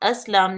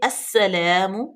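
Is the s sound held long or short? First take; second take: short; long. First: The s sound is short and single. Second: The s sound is doubled and hissed firmly. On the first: The speaker calls it wrong. "अस्लाम अस्लाम नहीं करेंगे" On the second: The speaker calls it right. "सीन जो है वो मुशद्दद है, सख्ती से पढ़ेंगे और सीटी की आवाज जरूर पैदा करेंगे"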